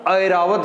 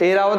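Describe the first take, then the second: First: ऐरावत said as "airavat" with a full ai; ऐरावत opening on a clear ai sound; correct pronunciation. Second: ऐरावत said as "eravat" with a plain e; the wrong way: ऐरावत with a flat short e; wrong pronunciation. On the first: Teacher showing students the correct form, ऐरावत said as airavat. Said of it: "ऐरावत होता है". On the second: Teacher showing students the common mistake, ऐरावत said as eravat. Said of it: "ऐरावत नहीं होता". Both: Shown as a demonstration.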